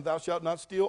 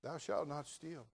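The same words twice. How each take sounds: First: Said in the usual way. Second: "Thou shalt not steal" said slow and soft, each word weighed; solemn commandment. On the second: Shown as a demonstration. Pastor quoting the commandment to his flock, slow and hushed.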